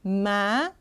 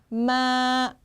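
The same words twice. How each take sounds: First: The pitch rises steadily upward. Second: The pitch stays level and long. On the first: "쭉 올라갑니다" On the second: "길게 쭉 뻗어줍니다"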